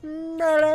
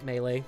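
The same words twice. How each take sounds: First: It is said in a booming announcer voice. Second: It is said in his normal voice.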